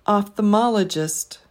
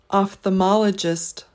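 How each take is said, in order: The two takes are said the same way.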